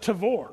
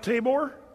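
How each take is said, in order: First: The middle consonant is a V sound. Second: The middle consonant is a B sound. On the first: "it's actually Tavor is what they call it" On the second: "a lot of these words that we pronounce with the B"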